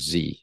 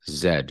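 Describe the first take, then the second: First: The letter is said the American way, 'zee'. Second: The letter is said the Canadian way, 'zed'.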